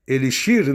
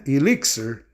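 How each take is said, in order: First: "elixir" with a Portuguese sh sound for x, stressed on the last syllable; Portuguese pronunciation. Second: "Elixir" with a ks sound for x, stressed on the middle syllable; English pronunciation. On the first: Teacher gives students the Portuguese word "elixir", said eh-lee-SHEER. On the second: Teacher shows students an English exception, "Elixir" said ih-LIK-ser. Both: Shown as a demonstration. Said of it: "inclusive as suas exceções".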